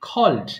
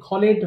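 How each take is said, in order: First: The ending is a bare d, one syllable. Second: The ending is said as an extra syllable. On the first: The speaker calls it right. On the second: The speaker calls it wrong. "অনেকে ভুল করে খলেড বলে ফেলে, খলেড হবে না"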